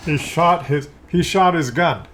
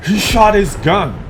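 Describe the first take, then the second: First: Sarcastic. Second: "He shot his gun" high, loud and drawn out in shock; wide-eyed astonished exclamation; surprised. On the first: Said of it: "you know I'm being kinda sarcastic". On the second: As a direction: gasp it out in disbelief. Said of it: "You know I'm looking surprised". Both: Shown as a demonstration.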